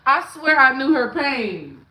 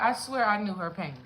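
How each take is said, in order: First: Much louder swear; loud emphatic claim; loud insistence. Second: Said in the usual way. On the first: Real, not acted. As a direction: push it out loud.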